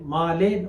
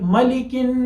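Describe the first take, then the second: First: The first vowel is drawn out long. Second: The first vowel is kept short. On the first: The speaker calls it wrong. "माले गलत है" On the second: The speaker calls it right. "यह है मलिकिन नास"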